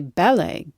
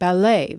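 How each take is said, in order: First: The stress is on the first syllable. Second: The stress is on the second syllable. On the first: It uses the English stress pattern. "In Britain, they say" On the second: It keeps the foreign word's stress. "We let the foreign stress stay on newer borrowings like"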